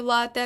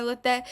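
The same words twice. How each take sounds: First: «лате» as LA-te; stress on first syllable. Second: «лате» as la-TE; wrong final stress. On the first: Teacher contrasting right лате, first-syllable stress. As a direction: lean on ЛА in «лате». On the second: Teacher showing the mistaken лате, last-syllable stress. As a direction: shift the weight onto ТЕ in «лате». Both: Shown as a demonstration. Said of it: "а не лате".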